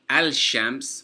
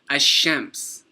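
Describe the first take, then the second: First: The L is clearly pronounced before sh. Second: The L merges into a doubled sh sound. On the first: The speaker calls it wrong. "We didn't say al-shams" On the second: The speaker calls it right. "we didn't pronounce the lam"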